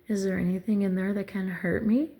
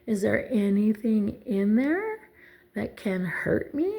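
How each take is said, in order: First: The question is said at a normal pace. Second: The question is said more slowly.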